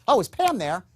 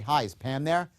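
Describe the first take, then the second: First: It sounds upbeat and enthusiastic. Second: It sounds flat and dull.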